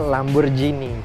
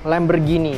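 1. Konsonan di tengah itu bunyi j. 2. Konsonan di tengah itu g keras. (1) "pakai huruf J" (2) "tetap pakai huruf G"

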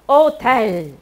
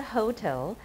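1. 这个词以元音开头，h 不发音。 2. 这个词开头有清晰的 h 音。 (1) "H 没有发音" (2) "不是hotel"

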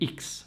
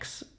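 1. La lettera si pronuncia 'iks'. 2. La lettera si pronuncia 'eks'. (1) "che sarebbe X" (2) "ma la pronuncia è X"

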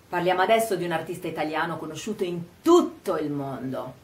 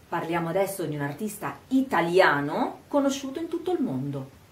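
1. La parola "tutto" è enfatizzata e spicca. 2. La parola "italiano" è enfatizzata e rallentata. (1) "vogliamo dire che il mondo è proprio tutto" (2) "rallento quando dico italiano? Enfatizzo e rallento, ma il resto è veloce"

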